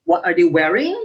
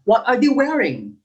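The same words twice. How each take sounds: First: "What are they wearing" low, climbing up on "wearing"; rising intonation. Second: "What are they wearing" rising, then falling on "wearing"; "What are they wearing" as a falling question. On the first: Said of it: "We don't say that". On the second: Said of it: "goes up and down at the end". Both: Shown as a demonstration.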